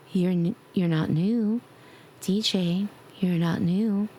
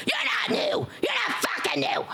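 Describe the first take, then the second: First: Gentle. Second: High shrieking gremlin yell. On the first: Pretend. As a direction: tell them off tenderly. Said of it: "I'll just be like, gentle ones". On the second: Acted. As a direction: screech it like an angry gremlin. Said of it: "there's my gremlin voice".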